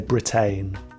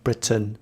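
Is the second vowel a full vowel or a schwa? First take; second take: full vowel; schwa. First: The second syllable has a full, clear vowel. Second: The second syllable has a weak schwa vowel. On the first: The speaker calls it wrong. "be careful not to say Britain" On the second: The speaker calls it right. "The sound is uh, which is a, a schwa sound"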